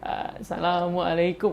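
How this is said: The greeting is said in a shaky, nervous voice. Listeners notice the speaker's weaknesses instead. "kalau kita gugup"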